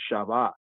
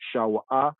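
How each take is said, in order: First: The middle consonant is a v sound. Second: The middle consonant is a w sound. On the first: This is the modern pronunciation. "modern Hebrew" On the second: This is the ancient pronunciation. "ancient pointing"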